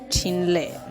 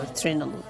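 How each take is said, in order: First: The name begins with a 'ch' sound. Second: The name begins with a 'tr' sound. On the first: The speaker calls it right. "It is pronounced as Chinle" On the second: The speaker calls it wrong. "not Trinle"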